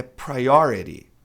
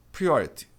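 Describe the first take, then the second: First: Priority with prai and a flapped T, slowly; Priority, stress on the O; correct pronunciation, loud. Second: Priority with pri like in Portuguese, no final I; priority as most Brazilians say it; wrong pronunciation. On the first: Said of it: "É priority". (pronúncia correta de priority) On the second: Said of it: "A maioria das pessoas diz priority". (pronúncia errada de priority) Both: Shown as a demonstration.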